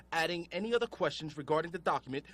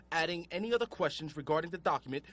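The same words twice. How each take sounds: The two takes are said the same way.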